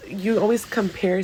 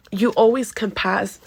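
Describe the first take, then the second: First: Said in the usual way. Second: "compass-" said instead of compare, cut off mid-word; tongue-slip "compass-"; slipped word. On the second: Real, not acted. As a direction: stumble into "compass-" and break off. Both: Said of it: "sorry about that".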